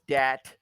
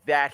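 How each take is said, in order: First: The word begins with a hard d sound. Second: The word begins with a soft th sound. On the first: "he says dat" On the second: "instead of saying that"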